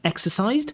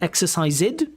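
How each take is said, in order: First: The ending adds no extra syllable. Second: The ending is an extra 'id' syllable. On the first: The speaker calls it right. "instead of exercised" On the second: The speaker calls it wrong. "you say exercised"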